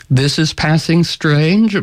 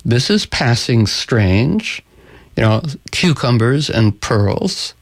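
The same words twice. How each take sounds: First: Slow, slightly raised echoing delivery; talking bird. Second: Slow, lightly voiced Sultan; puzzled Sultan. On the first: Acted. Talking bird answers the Sultan, slow pointed echo. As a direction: echo it slowly, as a lightly voiced bird. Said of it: "And the talking bird says". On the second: Storyteller voices the Sultan served cucumbers, slow and puzzled. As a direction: ponder it slowly, stretching the words. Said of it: "And the Sultan says".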